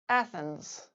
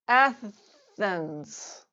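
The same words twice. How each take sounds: First: The word is said at normal conversational speed. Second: The word is said slowly and drawn out. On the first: "then at normal speed" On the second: "once slowly"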